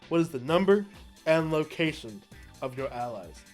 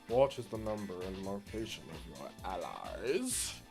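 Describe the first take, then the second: First: It is said in his normal voice. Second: It is said in an impression of Nanami.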